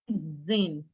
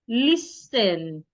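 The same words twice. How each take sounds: First: The middle consonant is a Z sound. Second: The middle consonant is an S sound. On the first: The speaker calls it wrong. "some people change the sound of the S to a Z" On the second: The speaker calls it right. "It's not listen. It's list, listen"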